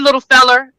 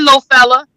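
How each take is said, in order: First: The word ends with an 'er' sound. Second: The word ends with an 'uh' sound. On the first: "you pronounce it with the E R" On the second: "You just change the E R to an A"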